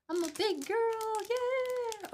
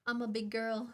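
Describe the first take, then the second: First: Put-on a much higher, hyped-up cheer of big girl; squeaky cheer. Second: Said in the usual way. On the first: Shown as a demonstration. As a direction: cheer yourself on like a proud kid.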